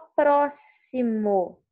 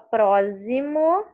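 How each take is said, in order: First: The x is pronounced as an s sound. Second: The x is pronounced as a z sound. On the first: The speaker calls it right. "Você fala próximo. ... Tem o som de S" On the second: The speaker calls it wrong. "você não fala próximo, ela não tem o som de Z"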